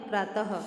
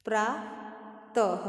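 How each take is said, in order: First: Said in the usual way. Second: प्रातः drawn out slowly with a clear ह at the end; stretched visarga. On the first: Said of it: "शब्द बनेगा प्रातः". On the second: Shown as a demonstration. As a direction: say प्रातः slowly and let the final ह ring. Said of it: "शब्द बनेगा". (प्रातः को धीरे-धीरे, अंत में साफ़ ह)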